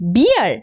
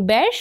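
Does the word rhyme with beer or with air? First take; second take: beer; air. First: The vowel sounds like the one in beer. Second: The vowel sounds like the one in air. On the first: The speaker calls it wrong. "ভুল।" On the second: The speaker calls it right. "B E এ আর এর উচ্চারণ হয় বের"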